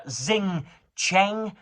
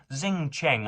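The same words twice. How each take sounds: First: Xing Cheng said higher, in a put-on try at the original sounds; attempted foreign pronunciation. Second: Said in the usual way. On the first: Shown as a demonstration. Reading out a journalist's name, trying a foreign pronunciation of Xing Cheng. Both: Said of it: "I'm going to butcher this name".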